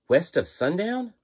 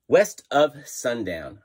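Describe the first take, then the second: First: The voice rises at the end, like a question. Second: The voice falls at the end, like a statement. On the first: The speaker is unsure of the name. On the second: The speaker is sure of the name.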